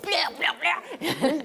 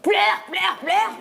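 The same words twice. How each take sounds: First: The command is said in a gentle, soft way. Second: The command is said in a harsh, forceful way. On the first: "Je lui disais gentiment dans l'oreille" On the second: "Mais c'est pas vrai, je faisais pas comme ça"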